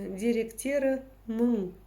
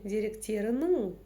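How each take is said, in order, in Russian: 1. Гласный произносится твёрдо, как русское «ы». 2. Гласный произносится посередине между твёрдым и мягким. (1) "через букву «ы», то есть твердо. ... Тяжеловато" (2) "вот та самая средняя мягкость"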